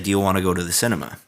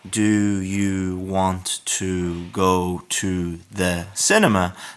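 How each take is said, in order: First: It is said quickly with the words linked together. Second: It is said slowly with each word separate.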